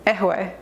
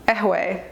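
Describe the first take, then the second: Both takes have the same delivery.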